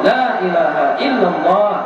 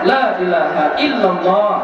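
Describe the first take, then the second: Both takes have the same delivery.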